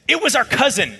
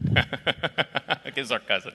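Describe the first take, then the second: First: High, indignant accusation; acted-out outrage, voice shooting up; outraged. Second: Words dragged out through laughter; acted helpless laughing fit, very slow; laughing on mute. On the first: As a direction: imitate a scandalized sister dropping the bombshell. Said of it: "she was absolutely outraged". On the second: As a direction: mimic cracking up where the caller can't hear. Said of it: "hit the mute button and said".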